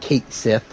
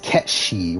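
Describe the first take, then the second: First: The name begins with 'Kate' and ends 'Sith'. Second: The name begins with 'Ket' and ends 'shi'. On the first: The speaker calls it wrong. "I know it's not Kate Sith, but that's like how it's uh spelled" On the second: The speaker calls it right. "it's Ketshi"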